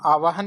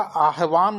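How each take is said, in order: First: आवाहन said as aa-vaa-han, v before h; wrong pronunciation. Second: आह्वान said as aah-vaan, h before v; correct pronunciation. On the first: Teacher rejects the common form, wrong pronunciation. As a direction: put the h late in आवाहन. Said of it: "आवाहन नहीं होता". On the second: Teacher corrects the common form, correct pronunciation. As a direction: sound the h first in आह्वान. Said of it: "आह्वान होता है". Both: Shown as a demonstration.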